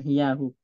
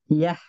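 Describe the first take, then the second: First: The word ends with h followed by u. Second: The word ends on a bare h sound. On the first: The speaker calls it wrong. "bukan hiyahu" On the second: The speaker calls it right. "Hiyah bukan hiyahu"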